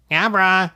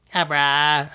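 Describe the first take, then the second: First: Higher, sly call of its own name; a cheeky Pokemon grinning; smirking creature. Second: Drowsy little Pokemon cry; sleepy Abra. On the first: Acted. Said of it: "he smirked". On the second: A narrator's reading. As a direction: yawn out the creature's name. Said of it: "Abra said sleepily".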